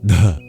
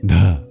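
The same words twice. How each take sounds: First: The d is released with a puff of breath. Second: The same.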